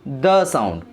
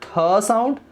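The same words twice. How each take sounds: First: The said as a voiced "duh" in the sound. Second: Th said as an aspirated "thuh" in th sound; voiceless th sound. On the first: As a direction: sound out the with a d-like onset. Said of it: "and here it gave". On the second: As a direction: stretch th as a breath-released t syllable. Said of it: "it gave". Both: Shown as a demonstration.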